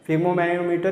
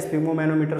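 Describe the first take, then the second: First: The word starts without an S sound. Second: The word starts with an S sound.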